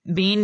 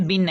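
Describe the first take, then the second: First: The vowel is long and drawn out. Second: The vowel is short and clipped. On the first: The speaker calls it wrong. "बीन नहीं पढ़ते" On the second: The speaker calls it right. "बिन है ये"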